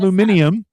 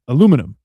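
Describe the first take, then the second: First: The word is said the British way. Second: The word is said the American way. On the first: The speaker calls it wrong. "British people pronounce it aluminium" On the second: The speaker calls it right. "aluminum is how you pronounce it"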